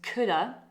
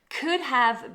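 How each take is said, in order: First: The words run together into one reduced word. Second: Both words are said fully and separately.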